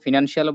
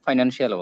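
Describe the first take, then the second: First: The first syllable sounds like 'fin'. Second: The first syllable sounds like 'fine'. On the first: This is the direct English pronunciation. "ফিনান্স বললে direct English উচ্চারণ করা হয়" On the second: This is the Bangla-style pronunciation. "ফাইন্যান্স বললে ওটার বাংলাটা উচ্চারণ করা হয়"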